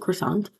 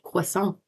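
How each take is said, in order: First: It has an English pronunciation with a hard R. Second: It has a French pronunciation with a soft R. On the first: "In in English, we we pronounce it croissant" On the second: "they would say croissant, and they wouldn't say the A N T"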